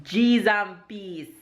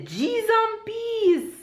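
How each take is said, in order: First: Jamaican expression. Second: Very high, slow, laughing G's and peace; excited Jamaican exclamation. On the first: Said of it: "the Jamaican expression for today is". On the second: Vlogger demoing the Jamaican phrase in excitement, very high and slow. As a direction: draw it out high in delight, in Jamaican. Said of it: "in excitement". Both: Shown as a demonstration.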